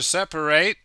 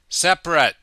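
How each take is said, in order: First: It uses the verb pronunciation of the word. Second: It uses the adjective pronunciation of the word. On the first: It is the action of dividing things. "to separate" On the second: It describes things that are apart. "For the adjective we say separate"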